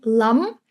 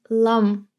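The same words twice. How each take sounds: First: "lam" with a fully sounded final M, tone rising; the wrong "lam", M pronounced clearly; over-clear M. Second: "lam" with a light final M, tone settling; "lam" with its M barely pressed; softened M. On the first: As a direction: close firmly on the M of "lam". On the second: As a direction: let the M of "lam" stay understated. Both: Shown as a demonstration. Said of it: "you're not really pronouncing the M as clearly".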